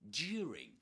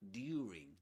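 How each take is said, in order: First: It is said with a modern British pronunciation. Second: It is said with an older received pronunciation. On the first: This is how most British speakers say it today. "But nowadays, you will usually hear" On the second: This is how speakers of the traditional accent say it. "In in received pronunciation in the past"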